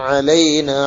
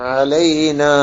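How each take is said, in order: The two takes are said the same way.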